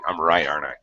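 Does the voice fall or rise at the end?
fall. The voice falls at the end. The speaker is confident. "Often it'll be falling"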